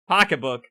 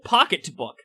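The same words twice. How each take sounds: First: The middle T sound is dropped or swallowed. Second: The middle T sound is clearly pronounced. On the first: "we pronounce it pocketbook. I repeat again, because we're from New England, and the the letter T and R scares us" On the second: "We don't pronounce it pocketbook"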